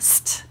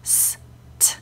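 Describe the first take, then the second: First: The two sounds are blended into one. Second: The two sounds are said separately. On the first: The speaker calls it wrong. "like it's one sound" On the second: The speaker calls it right. "no, it's S, T"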